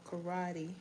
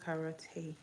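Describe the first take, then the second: First: "karate" said as kuh-RAH-dee; common alternative pronunciation. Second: "karate" said as ka-ra-TAY; alternative pronunciation. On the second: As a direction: finish "karate" with "tay", not "dee". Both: Shown as a demonstration. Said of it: "as many people may call it".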